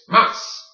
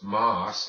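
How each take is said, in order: First: The word is said harder, with extra force. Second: The word is said plainly, without extra force. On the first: The speaker calls it right. "say it with a little more authority" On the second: The speaker calls it wrong. "It is not just mas"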